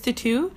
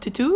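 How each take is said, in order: First: It is said with an English accent. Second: It is said with a French accent. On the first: The speaker calls it wrong. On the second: The speaker calls it right.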